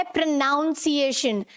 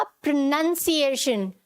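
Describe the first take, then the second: First: प्रोनाउंसिएशन with "noun" inside; wrong pronunciation. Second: प्रोनाउंसिएशन with "nun" inside; correct pronunciation. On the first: Teacher reading out Rahul's misspelling, प्रोनाउंसिएशन with "noun". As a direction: say प्रोनाउंसिएशन as "pro-NOUN-siation". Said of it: "नाउन नहीं आएगा". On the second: Teacher correcting Rahul, प्रोनाउंसिएशन with short "nun". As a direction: say प्रोनाउंसिएशन as "pro-NUN-siation". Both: Shown as a demonstration.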